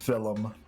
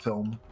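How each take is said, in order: First: The word is said with an Irish accent. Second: The word is said with an American accent. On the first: "some Irish guy on YouTube was saying that it's pronounced film" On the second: "not film"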